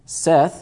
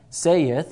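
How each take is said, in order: First: The vowel is short, as in 'set'. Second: The vowel is long, as in 'say'. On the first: The speaker calls it right. "it's Seth" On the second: The speaker calls it wrong. "it's not saith"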